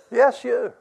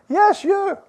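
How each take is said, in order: First: Said in the usual way. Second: Much higher, louder insistence on yes; emphatic yes. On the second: Real, not acted. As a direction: shout it out to the one who doubts. Preacher answers a doubting listener.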